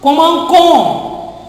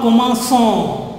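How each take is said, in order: First: The middle c is pronounced as a k. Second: The middle c is pronounced as an s. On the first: The speaker calls it wrong. "Without this C cédula, this pronunciation becomes commencon ... con, not son" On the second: The speaker calls it right. "not commençon ... to retain the pronunciation of son"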